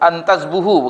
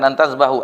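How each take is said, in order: First: The vowel after the b is u. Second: The vowel after the b is a. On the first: The speaker calls it right. "antazbuhu, bukan antazbahu" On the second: The speaker calls it wrong. "bukan antazbahu"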